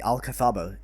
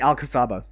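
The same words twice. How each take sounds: First: The name is said with Spanish sounds. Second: The name is said with English sounds.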